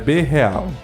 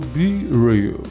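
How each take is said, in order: First: It is pronounced with a Portuguese accent. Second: It is pronounced with an English accent. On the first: The speaker calls it wrong. "Se eu for falar português, a portuguesada é B real" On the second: The speaker calls it right. "eu suponho que é em inglês, então eu pronuncio Be Real"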